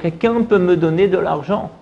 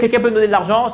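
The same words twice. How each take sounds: First: It is said in a distressed, tearful voice. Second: It is said in a plain, calm voice. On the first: The listener is more moved to give money. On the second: The listener may not give anything.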